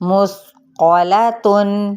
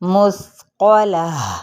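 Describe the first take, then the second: First: The word ends with a full 'tun' sound. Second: The word ends with a soft 'h' sound. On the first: The reading continues without stopping. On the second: The reader stops on this word.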